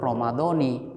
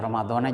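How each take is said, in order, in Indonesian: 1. Kata ini berakhir dengan bunyi vokal i. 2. Kata ini berakhir dengan bunyi vokal a. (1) "Kalau secara ilmu nahwu Ramadhani" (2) "kalau mau baca Ramadhana juga nggak apa-apa"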